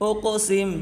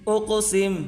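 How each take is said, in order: Both takes have the same delivery.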